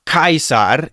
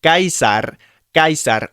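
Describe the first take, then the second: First: CAESAR as "khai-sar" with a puff of air; breathy k opening Caesar, slow; aspirated hard C. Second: CAESAR as "kai-sar", no puff of air; dry, unbreathed k opening Caesar, near a g; dry hard C. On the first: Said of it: "it's not Caesar". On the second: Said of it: "It is a very dry sound". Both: Shown as a demonstration.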